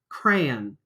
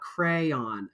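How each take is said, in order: First: It is said as one syllable, Southern style. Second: It is said as two syllables.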